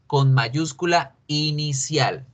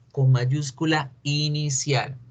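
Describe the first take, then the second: No difference in how they are said.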